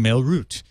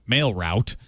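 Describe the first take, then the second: First: Route is said with a put-on, refined accent. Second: Route is said with a Southern Illinois accent. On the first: The speaker calls it wrong. "because I was putting on airs" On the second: The speaker calls it right. "my native Southern Illinois accent"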